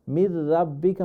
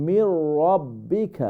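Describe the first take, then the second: First: "من ربك" with a light, open "ra"; thin, wrong R. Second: "من ربك" slow, with heavy rounded "raw"; full-mouth R. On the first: Teacher showing what not to say, thin r in "من ربك". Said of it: "হবে না". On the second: Teacher correcting the r, slow heavy "raw" in "من ربك". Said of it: "রাটা ফুল মাফ হবে". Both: Shown as a demonstration.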